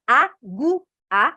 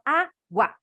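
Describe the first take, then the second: First: "agu-, a" as A, GU, A, slow and separate; split into three syllables. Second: "água" as Á, GUA; split into two syllables. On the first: Teacher tests a wrong division, A-GU-A in pieces. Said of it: "Pronuncia. Você fala". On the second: Teacher offers the natural division, Á then GUA. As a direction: say "água" in two pieces, gua kept together. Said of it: "ou você fala". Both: Shown as a demonstration.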